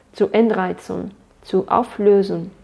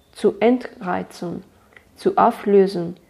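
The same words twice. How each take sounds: Both takes have the same delivery.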